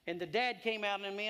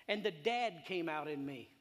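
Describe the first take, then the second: First: Dad said louder, punched; the dad bit stressed harder; emphatic. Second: Said in the usual way. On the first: Retold or imitated. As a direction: drive home the dad. Repeated line, more emphatic.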